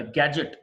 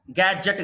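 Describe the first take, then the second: First: గ్యాడ్జెట్ as "GAJ-it"; short unstressed ending. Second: గ్యాడ్జెట్ as "gad-JETT"; wrong full vowel. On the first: Teacher correcting learners, గ్యాడ్జెట్ as "gaj-it". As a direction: weaken the second vowel of గ్యాడ్జెట్. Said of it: "గ్యాడ్జెట్ కాదు". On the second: Teacher showing learners the mistake, గ్యాడ్జెట్ as "gad-jett". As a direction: give గ్యాడ్జెట్ a full open e. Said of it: "కాదు". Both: Shown as a demonstration.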